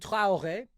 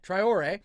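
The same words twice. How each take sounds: First: The name is said with a French pronunciation. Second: The name is said with an American pronunciation. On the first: "but I am learning French" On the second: "I'll go with the, the American pronunciation going forward"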